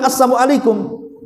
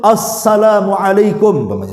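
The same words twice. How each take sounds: First: The greeting is mumbled and unclear. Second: The greeting is articulated clearly and fully. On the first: The greeting is not spoken fluently. "bukan assalamualaikum" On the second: The greeting is spoken fluently and properly. "enggak samar-samar juga dia mengucapkan assalamualaikum, jelas-jelas"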